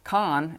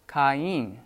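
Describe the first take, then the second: First: "Khan" as one syllable, vowels glided together; one-beat "Khan", rhyming roughly with "line"; run as diphthong. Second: "Cain" split in two syllables, ka-een; two-beat "Cain" with no diphthong; vowels pronounced separately. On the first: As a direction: say "Khan" with its two vowels merged into one sound. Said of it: "So instead of". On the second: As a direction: say "Cain" as "kah-EEN", each vowel sounded. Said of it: "you pronounce the vowels separately". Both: Shown as a demonstration.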